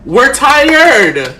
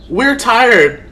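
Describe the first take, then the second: First: Loud, fed-up outcry; exasperated. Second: Repeated, stressing WE're; tired anger pressing on "We're"; fed up. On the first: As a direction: let the exhaustion burst out loud. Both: Real, not acted. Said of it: "this is why I'm pissed the fuck off".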